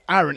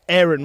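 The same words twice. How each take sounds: First: The name is said with a British accent. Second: The name is said with an American accent. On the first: The speaker calls it right. "when it was clearly called Aaron" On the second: The speaker calls it wrong. "every time they called that baby Aaron"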